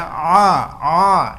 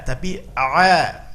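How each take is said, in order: First: A said through the nose; a, a sounding nasal, the mistake; wrong nasal a. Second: A from the middle of the throat; right throat a. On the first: Teacher shows the nasal mistake on huruf ain. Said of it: "masuk ke dalam hidung". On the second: Teacher shows the correct ain after the mistake. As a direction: Tapi a, the a pure from the middle of the throat. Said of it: "murni dari wastul halqi". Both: Shown as a demonstration.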